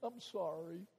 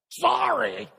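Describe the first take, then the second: First: It sounds humble and truly sorry. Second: It sounds grudging and insincere.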